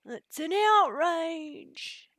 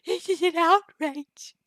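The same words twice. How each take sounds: First: High, very slow, drawn-out cry of indignation; hammed-up high comic outrage; Mighty Boosh quote. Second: High, loud, slow mock outrage; hammed-up shrieking comic indignation; Mighty Boosh quote. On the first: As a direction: stretch every word of the outrage way up high. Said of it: "in the Mighty Boosh is". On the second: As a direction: blast it up high like a pompous cartoon. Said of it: "get used to my weird voices".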